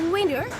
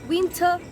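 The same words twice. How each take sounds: First: It is said in an American accent. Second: It is said in a British accent. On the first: "in the American accent" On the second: "British অ্যাকসেন্টে সিজনসের name বলতে চাই"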